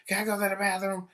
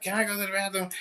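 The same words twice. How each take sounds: First: Put-on high, faster pleading child voice; mock toddler nagging to go; whiny kid asking. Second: High, pleading student voice; mock whiny child asking permission; whiny kid asking. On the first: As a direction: rattle it off like an impatient toddler. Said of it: "like they're three-year-olds". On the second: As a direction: mimic a kid begging to leave class. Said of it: "everybody has to go to the bathroom".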